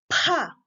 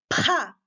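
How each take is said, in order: First: The p is released with a strong puff of air. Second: The p is released with a strong puff of air.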